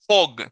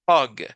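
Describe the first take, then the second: First: The vowel sounds like a Spanish O. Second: The vowel sounds between Spanish A and O. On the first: The speaker calls it wrong. "Ni tampoco es o, hog" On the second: The speaker calls it right. "Es como en medio, es hug"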